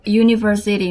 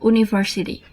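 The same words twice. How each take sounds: First: The word begins with a y sound. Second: The word begins with a plain vowel sound. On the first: The speaker calls it right. "sounds like Y" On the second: The speaker calls it wrong. "not U"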